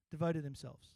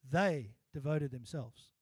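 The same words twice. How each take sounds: First: Devoted weighted, falling; devoted stressed, themselves light. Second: They stressed, slow and louder; They given full weight, slow. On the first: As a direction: lean on the word devoted. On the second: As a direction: slowly hit the word They. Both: Shown as a demonstration. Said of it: "put emphasis on those first three words differently".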